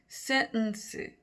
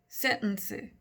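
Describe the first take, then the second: The two takes are said the same way.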